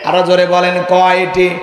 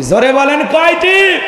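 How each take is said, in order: First: কয়টি held long on a level, lower tone; level drawn prompt. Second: কয়টি stretched long and swept up high; slow call, climbing steeply on কয়টি; rising crowd prompt. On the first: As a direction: draw out কয়টি evenly without rising. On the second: Preacher quizzing the crowd on how many, rising prompt. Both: Real, not acted.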